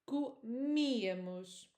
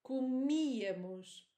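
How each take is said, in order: First: The stress falls on the 'mi' syllable. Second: The stress falls on the 'mi' syllable.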